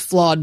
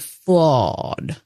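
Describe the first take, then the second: First: The word is said plainly, without extra weight. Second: The word is said with heavy, drawn-out emphasis. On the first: Every film has some ordinary faults. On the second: This film has an unusually large number of faults.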